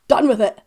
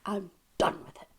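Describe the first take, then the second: First: Much louder, fed up; loud exasperated repeat. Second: Quiet, weary. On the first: Fed up with studio versus live debate, loud burst. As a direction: blurt it out, done with arguing. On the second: Repeats, then louder. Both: Acted.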